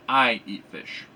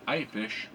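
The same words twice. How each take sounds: First: I punched, the rest light; emphatic I, fish thrown away; stress on I. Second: Said in the usual way. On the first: Shown as a demonstration. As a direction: hit the word I like it's nobody else. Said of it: "with the subject particle, we're saying". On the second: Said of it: "if we're blank, we would be like".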